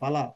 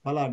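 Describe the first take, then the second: First: The first sound is an f through parted lips. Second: The first sound is made with closed lips. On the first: The speaker calls it wrong. "don't use phala. Phala is Urdu word, fa is Urdu word" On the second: The speaker calls it right. "please close the lips and use phala"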